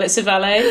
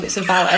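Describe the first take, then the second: First: A good-job "valet", said "val-ay"; valet the French way. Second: A bad-job "valet", said "val-it"; valet with a hard t. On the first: Scene, the posh way to say it: "valet" as "val-ay". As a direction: say "valet" ending in "ay". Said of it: "if they do it well". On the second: Scene, the cheap way to say it: "valet" as "val-it". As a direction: say "valet" rhyming with ballet-less "valit". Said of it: "if they do a bad job". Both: Shown as a demonstration.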